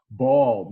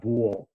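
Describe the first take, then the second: First: Ball with a standard open vowel; corrected vowel in ball. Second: Ball with a rounded Brooklyn aw; Brooklyn vowel in ball. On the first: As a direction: say ball loud, without the Brooklyn vowel. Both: Shown as a demonstration. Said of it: "not ball".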